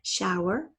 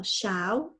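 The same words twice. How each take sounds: First: Said in the usual way. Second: SHOWER said as "show", then a separate "er"; split by syllable. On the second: Shown as a demonstration. Teacher marking the first syllable's end, SHOWER split in two. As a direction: break "shower" after the ow sound. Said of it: "it's the end of the first syllable".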